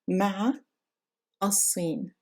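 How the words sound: A pause and glottal catch separate the words. "If we pause between the two words"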